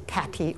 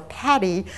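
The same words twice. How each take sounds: First: "Patty" with a clearly released T; crisp-T Patty. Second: "Patty" with a flapped T, like paddy; soft-T Patty. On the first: Lecturer unsure of colleague's name, "Patty" with crisp T. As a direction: sound out "Patty" as Pat-tee. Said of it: "ask her whether it was Patty or". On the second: Lecturer unsure of colleague's name, "Patty" said like paddy. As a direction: let the T in "Patty" become a quick D. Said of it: "whether it was Patty or". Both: Shown as a demonstration.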